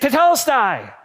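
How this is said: It is said as a soldier's triumphant shout.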